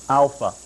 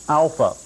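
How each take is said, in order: No difference in how they are said.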